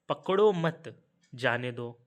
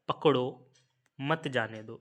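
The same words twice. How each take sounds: First: The pause comes right after the second word. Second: The pause comes right after the first word. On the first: Do not catch him, let him go. "इसमें अर्थ निकल रहा है कि पकड़ो मत जाने दो" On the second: Catch him, do not let him go. "इसका अर्थ क्या निकल रहा है कि पकड़ लो, मत जाने दो"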